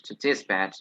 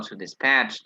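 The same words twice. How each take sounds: First: Dispatch with the weight on "dis"; stress on first syllable. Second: Dispatch with the weight on "patch"; stress on second syllable. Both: Shown as a demonstration. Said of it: "both pronunciations are correct".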